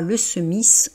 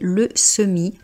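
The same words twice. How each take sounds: First: The final s is pronounced. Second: The final s is silent. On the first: The speaker calls it wrong. "on ne dit pas le semis" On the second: The speaker calls it right. "on dit le semis, ... on ne prononce pas la dernière consonne"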